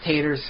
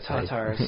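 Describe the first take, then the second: First: It sounds like 'taters', with a 'tay' vowel. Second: It sounds like 'tartar', with a 'tar' vowel. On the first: The speaker calls it wrong. "I keep saying taters" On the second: The speaker calls it right. "I pronounce it tatars, like tartar sauce"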